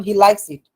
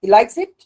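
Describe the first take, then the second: First: Plain statement falling after "likes"; "he likes it" closed downward, not asked; falling tune. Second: Louder, rising through "likes it"; rising question tune. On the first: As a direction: let "it" drop as a settled fact. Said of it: "falling tune কি?". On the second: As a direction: ask it with "it" lifted at the end. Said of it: "যখন আমরা প্রশ্ন করি". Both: Shown as a demonstration.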